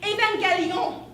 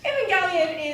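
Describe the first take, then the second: First: The word is said with a French-style pronunciation. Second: The word is said with a standard English pronunciation. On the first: "The proper pronunciation is actually Evangelion" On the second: "I will use the standard English pronunciation"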